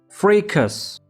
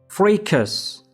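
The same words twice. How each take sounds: First: It is said with an American English pronunciation. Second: It is said with an American English pronunciation.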